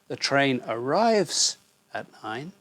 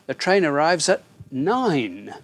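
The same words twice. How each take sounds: First: The stress is on arrives. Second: The stress is on nine.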